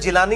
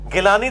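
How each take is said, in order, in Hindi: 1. नाम की शुरुआत 'j' ध्वनि से होती है। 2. नाम की शुरुआत कठोर 'g' ध्वनि से होती है। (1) "जिलानी इसी वजह से जीम बनाया गया" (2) "गिलानी तो लफ्ज ही गलत है"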